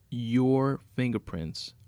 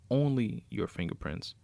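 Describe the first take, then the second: First: "your" drawn out slow and louder; slow, weighty "your", then "fingerprints" falling away; stress on "your". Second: "only" leads, then the phrase falls; emphatic "only", "your fingerprints" following more lightly; stress on "only". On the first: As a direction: lean long and hard on "your". Villain gloats over the planted evidence. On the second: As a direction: put the weight on "only". Repeats it, narrowing to only. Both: Acted.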